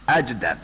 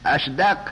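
First: The consonant before d is j. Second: The consonant before d is sh.

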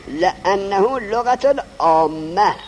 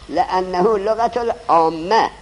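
No difference in how they are said.

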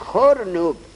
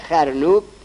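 First: The first vowel is a rounded 'u' sound. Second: The first vowel is an open 'a' sound. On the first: The speaker calls it right. "فصحاء خارا ذمه میدن" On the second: The speaker calls it wrong. "خرنوب به فتح کار عوام الناسه"

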